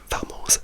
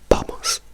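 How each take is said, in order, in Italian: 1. La parola inizia con un suono v. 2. La parola inizia con un suono b. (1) "non si dice vamos" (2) "si dice b, b, b, vamos"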